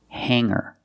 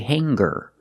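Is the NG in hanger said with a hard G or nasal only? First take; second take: nasal; hard G. First: The NG is only a nasal sound, no G. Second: The NG is followed by a hard G sound. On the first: The speaker calls it right. "We say singer and hanger" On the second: The speaker calls it wrong. "we don't say hanger"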